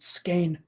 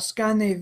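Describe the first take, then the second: First: The name is said in an American way. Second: The name is said in a non-American way.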